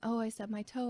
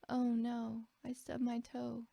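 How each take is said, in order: First: The speaker sounds panicked and alarmed. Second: The speaker sounds sad and defeated.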